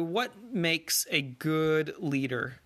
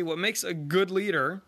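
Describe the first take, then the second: First: Slow, drawn-out quiz question. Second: "good" lifted with a rising tune; stress on good. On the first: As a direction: pose it slowly like a teacher quizzing. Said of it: "Here's a pop quiz for you". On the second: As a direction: lean on "good" in "what makes a good leader". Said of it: "And you probably got it wrong". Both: Shown as a demonstration.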